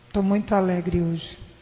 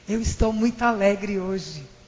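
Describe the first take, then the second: First: The voice sounds flat and joyless. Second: The voice sounds happy and lively. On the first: The words claim happiness the speaker does not convey. The speaker calls it wrong. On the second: The speaker really conveys happiness. The speaker calls it right.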